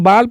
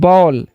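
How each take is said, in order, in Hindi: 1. स्वर खुला 'aa' जैसा लगता है। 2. स्वर गोल होठों वाला 'aw' जैसा लगता है। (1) "तो इसको हम बाल पढ़ते हैं या बॉल पढ़ते हैं" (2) "इसे हम लोग पढ़ते हैं बॉल"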